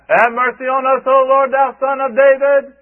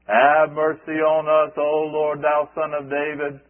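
First: It is said loudly. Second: It is said quietly.

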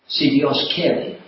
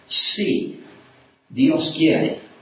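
First: The first word si is unstressed. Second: The first word si is stressed. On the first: It happens only if God wills it. "That literally means, if God wills" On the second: Yes, God does will it. "just got a different stress on it"

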